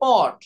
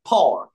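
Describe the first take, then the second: First: The first p has no puff of air. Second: The first p has a strong puff of air. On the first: The speaker calls it wrong. "আমরা normally এটাকে বলি পট" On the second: The speaker calls it right. "একটু জোর দিয়ে যদি মুখ দিয়ে যাতে বাতাস বের হয়ে যায়"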